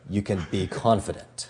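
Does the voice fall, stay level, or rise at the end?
fall. The pitch falls at the end. It is a solid command. The speaker calls it right. "If you have a downward inflection"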